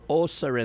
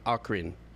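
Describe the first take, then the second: First: The c is said like an s sound. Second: The c is said like a k sound. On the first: "like an S" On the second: "Hard O, hard C"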